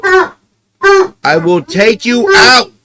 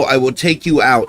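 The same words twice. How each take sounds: First: High, slow, louder singsong; promising the dog a walk, high and drawn out; pet talk. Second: Said in the usual way. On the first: Real, not acted. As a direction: stretch it out sweetly for the dog.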